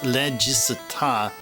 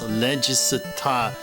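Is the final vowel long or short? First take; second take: short; long. First: The final vowel is short. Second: The final vowel is held long. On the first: The speaker calls it wrong. "it's not just regista" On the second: The speaker calls it right. "regista with the with the dash"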